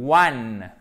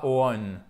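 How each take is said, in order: First: "one" loud, starting with a clear w glide; correct English "one". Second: "on" as a mistaken "one", with an open o; wrong French-style version. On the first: Teacher modelling for learners, "one" with a clear w. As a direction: say "one" as "wun", drawn out. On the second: Teacher showing learners the mistake to avoid, "on" for "one". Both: Shown as a demonstration. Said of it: "non pas on".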